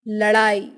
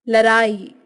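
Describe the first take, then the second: No difference in how they are said.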